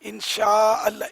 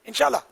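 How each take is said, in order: First: Each word is said clearly and separately. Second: The words are run together and slurred. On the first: The speaker calls it right. "ये ये बोलना सीखें।" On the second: The speaker calls it wrong. "बिल्कुल बिगाड़ के रख दिया है।"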